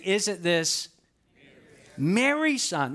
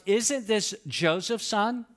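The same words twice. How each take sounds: First: Pause, then hit "Mary's"; stress on Mary's. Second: Slow, drawn-out "Isn't this Joseph's son?" rising at the end; ordinary response. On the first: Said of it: "But that's not what they say". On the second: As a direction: lay it out slowly as the expected question. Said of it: "It should have been an ordinary response". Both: Shown as a demonstration.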